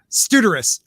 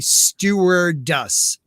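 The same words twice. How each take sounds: First: The word is said quickly and garbled. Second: The word is said very slowly. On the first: "if I say it fast" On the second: "I have to say it really slow"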